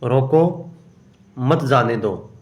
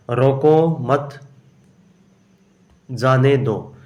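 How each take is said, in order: First: "रोको" left hanging, long pause, then "मत जाने दो" as one group; pause after रोको. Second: "रोको मत" drawn out slowly, long pause, then "जाने दो"; group "रोको मत" together, stop, then say "जाने दो"; pause after मत. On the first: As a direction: stop after "रोको", run "मत जाने दो" together. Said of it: "यहाँ या तो". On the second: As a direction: break clearly after "मत", before "जाने दो". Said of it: "जाने के बाद कॉमा नहीं आएगा". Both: Shown as a demonstration.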